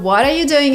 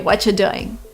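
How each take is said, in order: First: Every word is said fully and separately. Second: The opening words blend into watcha. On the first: "Instead of what are you doing" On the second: "sounds like watcha"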